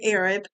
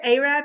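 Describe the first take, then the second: First: It uses the South Alabama pronunciation. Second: It uses the North Alabama pronunciation. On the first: This is the speaker's original home usage. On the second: The speaker has adopted the local northern usage.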